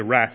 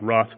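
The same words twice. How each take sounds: First: The word is said in a plain, unrefined accent. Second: The word is said in a posh, refined accent. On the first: This is the speaker's own everyday way of saying it. "I'm not as posh as Alex. I say wrath" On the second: This is how a more refined person says it. "not wrath"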